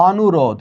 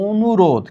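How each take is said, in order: First: অনুরোধ with open "aw" first vowel; spelling pronunciation. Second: অনুরোধ with rounded o first, onurodh. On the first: Teacher shows the written form of অনুরোধ, open অ first. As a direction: read অনুরোধ as written, awnurodh. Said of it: "এখানে আছে". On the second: Teacher shows how we read অনুরোধ, first vowel as o. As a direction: start অনুরোধ on a closed o. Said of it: "অকে ও পড়ছি". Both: Shown as a demonstration.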